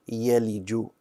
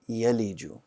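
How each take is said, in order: First: The last consonant is a j sound. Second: The same.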